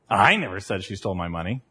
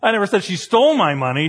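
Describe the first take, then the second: First: The word I is stressed. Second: The word stole is stressed.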